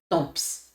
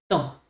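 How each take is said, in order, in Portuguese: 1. Um som de P é pronunciado no final. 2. Nenhum som de P é ouvido no final. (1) "Não é temps, tomps. Não" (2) "P não se pronuncia"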